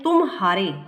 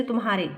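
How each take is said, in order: First: तुम हारे split into two words, तुम then हारे; तुम, brief pause, हारे, each part distinct; pause inside तुम हारे. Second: Said in the usual way. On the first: Shown as a demonstration. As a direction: leave a small break between तुम and हारे. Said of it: "म और ह के बीच कुछ विराम". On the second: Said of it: "तुम हारे का अर्थ तुम्हा".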